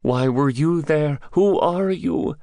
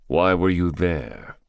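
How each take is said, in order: First: High-pitched, insistent captive; high character voice, demanding answers; challenging captive. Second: Said in the usual way. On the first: Acted. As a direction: throw the questions back, much higher. Captive questions his captor back.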